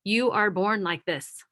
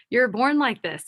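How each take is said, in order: First: Said in the usual way. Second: Higher and louder with a laugh; laughing repeat. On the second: Shown as a demonstration. Speaker repeating her point to listeners, laughing.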